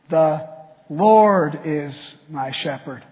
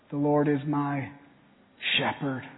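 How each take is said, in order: First: The word "Lord" is stressed. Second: The word "shepherd" is stressed.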